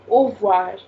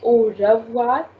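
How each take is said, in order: First: The r sound is left out completely. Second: The r sound is pronounced strongly. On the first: The speaker calls it right. "you can completely ignore it and say au revoir" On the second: The speaker calls it wrong. "We will not say au revoir"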